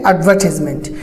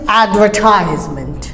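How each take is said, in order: First: The word is said with a British pronunciation. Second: The word is said with an American pronunciation. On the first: "British say advertisement" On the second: "Americans advertisement"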